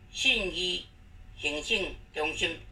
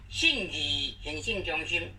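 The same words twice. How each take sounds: First: The syllable 义 is not in the third tone. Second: The syllable 义 is in the third tone. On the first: The speaker calls it wrong. "这是错误的" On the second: The speaker calls it right. "这个意思要念第三声"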